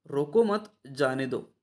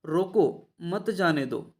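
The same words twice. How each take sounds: First: रोको मत run together, a break, then जाने दो; pause after मत. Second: रोको set off alone, a break, then मत जाने दो together; pause after रोको. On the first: Teacher showing students the opposite meaning, pause after मत. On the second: Teacher showing students how a comma changes meaning, pause after रोको. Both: Shown as a demonstration. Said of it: "विराम चिन्हों का प्रयोग अलग-अलग जगह पर".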